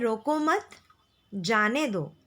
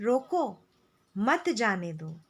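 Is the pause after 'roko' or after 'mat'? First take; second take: after mat; after roko. First: There is a pause after 'mat'. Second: There is a pause after 'roko'.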